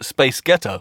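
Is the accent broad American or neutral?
neutral. It is said in the speaker's usual accent.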